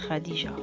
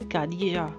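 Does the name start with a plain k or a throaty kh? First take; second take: throaty kh; plain k. First: It starts with a throaty kh sound. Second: It starts with a plain k sound. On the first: This is the native Arabic pronunciation. The speaker calls it right. "mais c'est Khadija" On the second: This is how non-Arabic speakers usually say it. The speaker calls it wrong. "ils disent Khadija"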